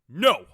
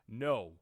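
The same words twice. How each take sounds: First: It is yelled with strong emotion. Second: It is said flatly, without emotion.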